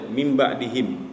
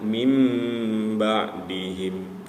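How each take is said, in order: First: The nasal sound is cut short, not held. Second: The nasal sound is held for about two beats. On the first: The speaker calls it wrong. "tidak ditahan. Jadi langsung aja" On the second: The speaker calls it right. "Semestinya ditahan"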